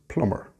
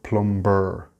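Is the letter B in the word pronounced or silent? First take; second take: silent; pronounced. First: The B sound is not pronounced. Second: The B sound is clearly pronounced. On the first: The speaker calls it right. "the B is silent" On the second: The speaker calls it wrong. "It's not plumber"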